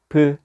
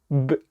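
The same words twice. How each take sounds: First: The b is followed by an added vowel. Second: The b is only a voiced burst. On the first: The speaker calls it wrong. "으라는 모음을 집어넣어서 발음을 하게 되거든요" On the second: The speaker calls it right. "요 호흡이 그냥 터지고 마는 거예요"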